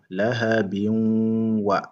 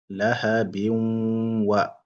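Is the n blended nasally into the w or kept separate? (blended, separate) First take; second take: blended; blended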